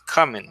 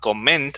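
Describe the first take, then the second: First: The stress is on the first syllable. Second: The stress is on the last syllable. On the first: The speaker calls it right. "but it's at the beginning" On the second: The speaker calls it wrong. "the stress is not comment at the end"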